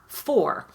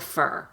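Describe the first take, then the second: First: The word has a full, clear vowel. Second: The word has a short, reduced vowel. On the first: The word is said on its own. "That's the way I say it when I'm saying it by itself" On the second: The word is said in connected speech. "in connected speech, for is reduced to fur"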